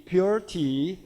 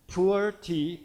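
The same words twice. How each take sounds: First: "pure" said as pyoo-er, with a y glide; "pure tea" with the English y sound; pure pronunciation. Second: "pure" said as poo-er, without the y; "pure tea" with a plain oo, as in pu'er; pu'er pronunciation. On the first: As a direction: correct it to "pure" with a clear pyoo. Second take with y glide. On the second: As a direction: say "pure" like poor. Corrects the name just said. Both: Shown as a demonstration.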